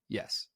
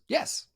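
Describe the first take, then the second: First: It sounds curt and annoyed. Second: It sounds warm and pleased. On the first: The speaker is irritated with the listener. "you idiot" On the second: The speaker happily agrees. "that sounds great. Like you're obviously not mad"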